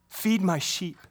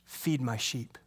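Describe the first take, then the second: First: Said in the usual way. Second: Jesus giving the charge quietly; soft first take. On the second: Acted. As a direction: lower and softer, gently.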